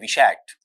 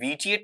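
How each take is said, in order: First: The middle consonant is an sh sound. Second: The middle consonant is a plain t sound. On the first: The speaker calls it right. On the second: The speaker calls it wrong.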